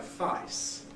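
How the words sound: The vowel is said in a broad Cockney way. "in Broad Cockney you say face"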